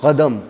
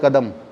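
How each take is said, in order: Both takes have the same delivery.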